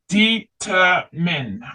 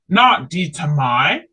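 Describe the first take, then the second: First: The last syllable is a short 'min'. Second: The last syllable is a long 'mine'. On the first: The speaker calls it right. "Only min. E sound is silent" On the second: The speaker calls it wrong. "Because we know mine"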